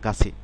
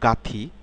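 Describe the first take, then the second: First: The middle consonant is a ch sound. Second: The middle consonant is a plain t sound. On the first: The speaker calls it right. "উচ্চারণ হবে গাছি" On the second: The speaker calls it wrong. "Not গাথি"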